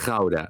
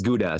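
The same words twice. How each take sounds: First: It is said with the Dutch throaty g sound. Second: It is said with the English hard g sound. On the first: "here it comes again. The g" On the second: "But for in English it's Gouda"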